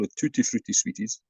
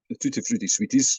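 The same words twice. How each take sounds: First: It is said in an English accent. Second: It is said in a non-English regional accent.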